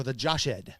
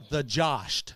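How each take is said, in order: First: Joshed in two syllables, josh-ed; old-style pronunciation. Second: Joshed as one syllable, josht; plain. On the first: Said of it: "medieval times". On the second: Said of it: "or the Joshed". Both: Shown as a demonstration.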